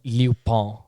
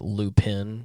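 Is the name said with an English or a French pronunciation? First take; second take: French; English. First: It is said the French way, final n barely heard. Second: It is said with a plain English pronunciation. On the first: The speaker calls it right. "how it's supposed to be pronounced" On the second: The speaker calls it wrong. "His name is never pronounced correctly"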